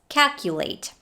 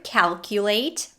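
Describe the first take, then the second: First: The L sound is dropped. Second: The L sound is clearly pronounced. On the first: The speaker calls it wrong. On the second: The speaker calls it right.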